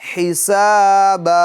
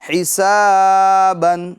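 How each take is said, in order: First: The word ends with a long a sound. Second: The word ends with an n sound. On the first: "आगे वक्फ" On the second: "बा दो जबर बन"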